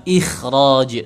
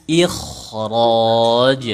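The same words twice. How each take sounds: First: "ikhraj" with a light, thin kh; "ikhraj", kh left light and unrounded; thin kha, incorrect. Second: "ikhraj" slowly, with a heavy, full kh; "ikhraj" chanted long with tafkhim on kh; thick kha. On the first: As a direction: say "ikhraj" without thickening the kh. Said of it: "bacanya bukan ikhraj, tapi ikhraj, dibaca tebal". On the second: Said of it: "dibaca tebal gitu". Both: Shown as a demonstration.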